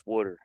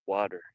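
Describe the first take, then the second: First: Water the East Coast way; East Coast accent. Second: "water" with an open ah in the first syllable; standard pronunciation. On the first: Retold or imitated. Co-host quoting East Coast speech, East Coast accent. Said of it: "Good old East Coast accent". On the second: Shown as a demonstration. Contrasting it with East Coast speech, standard "water". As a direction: say "water" the standard way, WAH-ter. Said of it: "He says water, not water".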